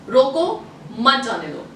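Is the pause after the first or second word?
first. The pause comes right after रोको.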